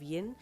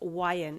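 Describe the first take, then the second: First: It is said as one blended word. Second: It is said as two separate letter names. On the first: It refers to a female listener. "the sound of the letter Y" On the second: It refers to a male listener. "I just say the letter Y instead of the sound of the letter Y"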